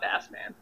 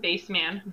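First: Bass is said like the fish word. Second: Bass is not said like the fish word. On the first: The speaker calls it wrong. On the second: The speaker calls it right.

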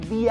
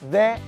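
First: The word is pronounced with a long 'ee' vowel. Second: The word is pronounced with a short 'uh' vowel. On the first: "Cada vez que tenemos un sonido vocálico después de la palabra de, se va a pronunciar di" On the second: "cada vez que tenemos un sonido consonante después de la palabra de, vamos a pronunciarla como tal, de"

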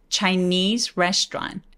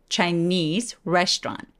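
No difference in how they are said.

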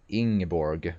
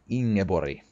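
First: The name is said with an English pronunciation. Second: The name is said with a Scandinavian pronunciation.

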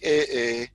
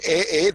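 First: The exclamation sounds disgusted and disapproving. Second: The exclamation sounds pleased and delighted. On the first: The speaker disapproves of what is seen. "They just use different inflection. So it's like, eh, that's what she's wearing" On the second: The speaker is pleasantly surprised. "Or, eh, this tastes so good"

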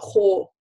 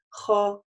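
First: The vowel is said with rounded lips. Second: The vowel is said with unrounded lips. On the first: The speaker calls it wrong. "чтобы вы не делали твёрдость за счёт округления махраджа, да, или округления губ. То есть это неверно" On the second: The speaker calls it right. "Её твёрдость в рамках этого будет достаточно"

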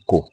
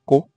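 First: The word is said on a low tone. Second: The word is said on a high tone. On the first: It is a command to wrap. "the three tones are clearly presented" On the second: It is the name of a community. "A high tone is used in such way as Ko"

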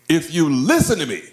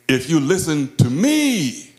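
First: The word "listen" carries the main stress. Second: The word "me" carries the main stress. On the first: Paying attention is what matters. "emphasize the different words of the phrase. ... listen" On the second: Heed this speaker rather than anyone else. "not everything else"

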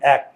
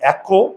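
First: The word ends on the bare 'k' consonant. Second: The word ends with an added 'o' vowel. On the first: The speaker calls it right. "এখানে কিন্তু অ এর উচ্চারণ হয় নাই।" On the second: The speaker calls it wrong. "আমরা কি বলি একো"

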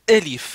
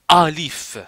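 First: The first vowel is a closer e sound. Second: The first vowel is an open a sound. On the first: The speaker calls it right. "il faut dire elif, c'est-à-dire un petit peu le ton un petit peu baissé" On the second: The speaker calls it wrong. "il ne faut pas dire alif"

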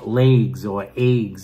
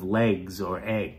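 First: The vowels are said with a Long Island accent. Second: The vowels are said in a standard American way. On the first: The speaker calls it wrong. "The Long Island accent is also a little different. Drives me nuts" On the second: The speaker calls it right. "instead of"

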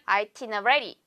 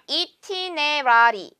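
First: The word begins with an 'eye' vowel sound. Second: The word begins with an 'ee' vowel sound. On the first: The speaker calls it right. "I라고 발음해 주셔야 되겠는데요" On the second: The speaker calls it wrong. "itinerary 아닙니다. ... E가 아니고요"

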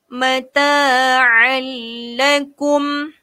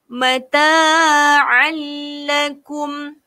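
The two takes are said the same way.

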